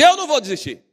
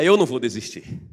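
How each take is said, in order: First: It is said loudly and strongly. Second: It is said at normal volume.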